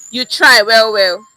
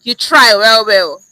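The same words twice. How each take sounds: First: "You try well, well" with "try" loud and "well" doubled and dropping; second take. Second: "You try well, well" with "try" loud and "well" doubled and dropping; emphatic praise. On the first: Teacher repeats the "well, well" take. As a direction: stress "try", let the second "well" fade. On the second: Teacher shows strong praise with "well, well". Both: Shown as a demonstration. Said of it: "Same words, different signal".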